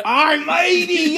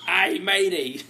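First: Very high, loud, drawn-out pirate yell; exaggerated pirate. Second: Loud, higher pirate punchline with a laugh; pirate voice, amused. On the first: Hamming up the pirate punchline, long high shout. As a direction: stretch it into a whooping pirate cry. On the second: Acted. Delivering a pirate joke, laughing pirate voice. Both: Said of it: "What did the pirate say".

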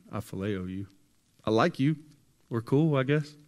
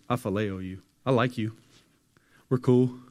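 First: Half-hearted, dodging the question; hesitant Peter. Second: Offhand Peter. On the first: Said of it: "Peter says it again". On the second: Peter brushing off Jesus's question, breezy and loud. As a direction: shrug it off, getting louder. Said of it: "Peter says". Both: Retold or imitated.

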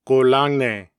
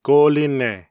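First: "golangne" with an open ang in the middle; Gyeonggi dialect word. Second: "Golinne" with an i in the middle syllable; standard Korean word. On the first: Narrator reading the Gyeonggi word second, citation style. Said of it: "then the word with the Gyeonggi dialect". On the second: Narrator reading the standard word first, citation style. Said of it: "I will read the standard Korean word". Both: Shown as a demonstration.

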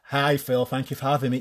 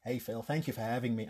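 First: Said in the usual way. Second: Put-on a light American accent, very soft. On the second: Guest greeting the TV host in a light American accent. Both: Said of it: "I'm not gonna do the American accent".

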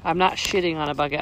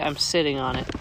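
First: "not" hit firmly, "shitting" with a clear sh; correcting the mishearing, weight on "not"; stress on not. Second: "sitting" stressed, crisp s, not sh; clear s in sitting. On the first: Setting the record straight to her husband, "not" stressed. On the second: Correcting husband's joke, "sitting" said crisply with an s. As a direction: lean on "sitting" with a clean s sound. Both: Shown as a demonstration.

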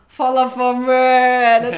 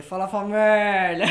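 First: Loud, higher, slow greeting call; catchphrase call. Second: Stretched, loud greeting call; catchphrase voice. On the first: Greeting the crew at the barbecue with a loud call. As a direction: call out to everyone arriving. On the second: Greeting the work crew with his stretched catchphrase. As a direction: belt out the greeting slow and drawn out. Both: Retold or imitated. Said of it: "Mas essa vozinha".

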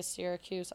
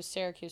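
First: Syracuse with first syllable like "seer"; own flattened Syracuse. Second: Syracuse with first syllable like "sair"; correct Syracuse. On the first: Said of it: "I say Syracuse". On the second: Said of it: "It's supposed to be Syracuse". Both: Shown as a demonstration.

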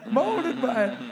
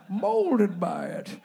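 First: "Molded by it" punched a bit louder on the retake; Bane voice. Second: "molded by it" dragged out slowly in the villain voice; Bane voice. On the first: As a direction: hit "Molded by it" firmer on the retake. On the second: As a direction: draw out "molded by it" slowly and heavily. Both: Acted. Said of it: "this is the Bane accent one".

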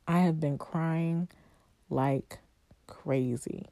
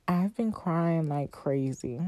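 First: "I have been crying" spelled out, then pauses before "like" and "crazy"; emphatic word-by-word. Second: Said in the usual way. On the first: Real, not acted. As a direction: separate "like" and "crazy" with weighty pauses.

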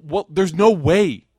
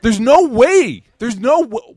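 First: Said in the usual way. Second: Emphatic no way. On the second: Real, not acted. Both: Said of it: "I'm doing it again".

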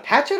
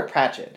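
First: "Patchett" said PAT-chet, no R after the P; Patchett without r. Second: "Pratchett" said PRAT-chet, with a clear R after the P. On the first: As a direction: weigh the r-less "Patchett". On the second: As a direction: set "Pratchett" against it, R sounded. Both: Shown as a demonstration. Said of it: "Patchett or Pratchett?".

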